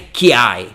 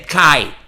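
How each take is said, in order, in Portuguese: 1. Um som tipo y segue o k. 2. O k vai direto para a vogal. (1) "não é kiai" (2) "mas é kai"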